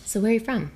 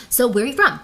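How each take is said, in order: First: Unhurried, easy question; calm relaxed asking; slow relaxed. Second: Quick, eager question fired out; nervous rushed asking. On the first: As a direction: take your time asking. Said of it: "I want you to do this". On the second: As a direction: rush it like a nervous guy. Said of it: "talking like this". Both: Shown as a demonstration.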